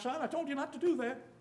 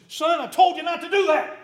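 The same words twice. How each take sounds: First: The voice is calm and even. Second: The voice is frustrated and raised. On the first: This is the first warning. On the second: Patience has run out after repeated warnings.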